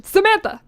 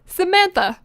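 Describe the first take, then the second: First: Higher, louder angry call; angry mother's shout. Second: High, raised mock-angry call; angry mother calling. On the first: Acted. Mother shouting after her running daughter, angrier call. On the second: Mother calling after her fleeing daughter, angry. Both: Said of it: "My mother's angry voice rang".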